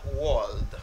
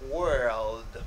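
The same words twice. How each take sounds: First: The vowel differs from the one in bird. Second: The vowel sounds like the one in bird. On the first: The speaker calls it wrong. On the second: The speaker calls it right. "this er sound as in bird"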